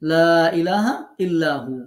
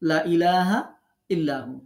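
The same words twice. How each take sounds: First: The vowel of the first word is held long. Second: The vowel of the first word is cut short. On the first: There is no god except God. The speaker calls it right. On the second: Surely there are other gods besides God. The speaker calls it wrong.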